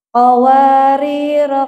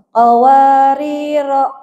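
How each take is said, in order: First: The word ends with a short vowel after r. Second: The same.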